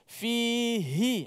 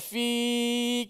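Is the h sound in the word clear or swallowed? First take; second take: clear; swallowed. First: The h sound is pressed and clearly heard. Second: The h sound is weak and swallowed. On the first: The speaker calls it right. "baru nampak huruf ha. Baru jelas" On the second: The speaker calls it wrong. "Fi dia hanya tenggelam dalam mat"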